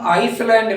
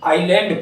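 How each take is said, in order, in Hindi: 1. s की आवाज़ बोली जाती है। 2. s की आवाज़ नहीं बोली जाती। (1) "आइसलैंड ना कह के" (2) "आइलैंड पढ़ते हैं"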